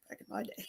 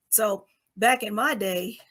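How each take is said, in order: First: Very soft, whispered echo; whispered aside. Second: Said in the usual way. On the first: Real, not acted. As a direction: repeat it under your breath, joking at yourself. Self-mocking echo about her age.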